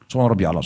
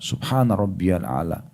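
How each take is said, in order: First: It is said quickly and hurriedly. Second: It is said slowly and calmly. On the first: The worshipper is rushing and unclear. The speaker calls it wrong. "Apa yang dibaca? ... Buru-buru" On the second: The worshipper is calm and unhurried. The speaker calls it right. "Berhenti sejenak"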